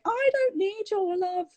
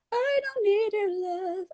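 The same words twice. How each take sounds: First: High, slow sung line with open British vowels; sung, unclosed vowels, drawn out in song; open-vowel singing. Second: High sung line, "love" narrowed to "uh"; sung, closed American vowels in song; closed-vowel singing. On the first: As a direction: sing "love" with an open "ah". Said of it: "rather than going". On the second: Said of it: "just closing your mouth like that little bit". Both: Shown as a demonstration.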